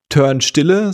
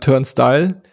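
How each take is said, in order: First: The second part sounds like German 'Stille'. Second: The second part sounds like English 'style'. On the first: The speaker calls it wrong. "Die Band heißt nicht" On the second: The speaker calls it right.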